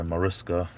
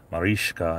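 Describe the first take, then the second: First: "Mariska" with a short i and plain s, muh-RISS-kuh; Americanized pronunciation. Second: "Mariska" with long ee and sh, mah-REESH-kah; European-style pronunciation. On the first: Streamer shows viewer how Americans say her name, "Mariska" Americanized as muh-RISS-kuh. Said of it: "we Americanize everything here". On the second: Streamer tries viewer's name the European way, "Mariska" as mah-REESH-kah. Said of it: "Is it more like a". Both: Shown as a demonstration.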